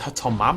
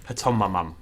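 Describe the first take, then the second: First: The 'mam' syllable is said once. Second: The 'mam' syllable is said twice. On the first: The speaker calls it right. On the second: The speaker calls it wrong.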